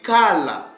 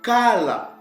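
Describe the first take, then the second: First: The middle consonant is an L sound. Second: The same.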